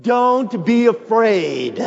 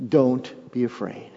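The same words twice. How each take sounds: First: High, loud and slow, every word leaned on; preacher leads the congregation in a loud, slow declaration; like you mean it. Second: Said in the usual way. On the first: Shown as a demonstration. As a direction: declare it with full conviction. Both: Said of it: "Say it like you mean it".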